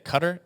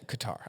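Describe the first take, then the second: First: The name is said unlike its English spelling. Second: The name is said following its English spelling. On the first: "which I believe is how it's supposed to be pronounced" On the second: "It looks like Qatar in English spelling"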